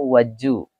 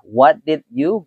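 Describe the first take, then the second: First: The d and y blend into a j sound. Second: Each word is said separately and fully.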